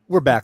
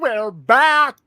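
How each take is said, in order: First: It is said in the speaker's natural voice. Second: It is said in a put-on announcer-like voice.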